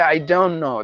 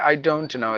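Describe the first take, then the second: First: The T in don't is dropped. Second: The T in don't is clearly pronounced. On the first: "They say ... They will silence the T" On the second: "They don't say"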